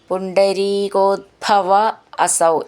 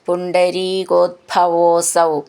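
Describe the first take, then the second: First: The two words are said separately. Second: The two words are blended into one.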